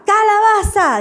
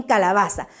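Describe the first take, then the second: First: Higher, louder chanted answer; children's playful reply. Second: Said in the usual way. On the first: Shown as a demonstration. Children answering the teacher's call, loud and higher. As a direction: answer back like an eager class. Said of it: "dicen los niños". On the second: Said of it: "los niños responden".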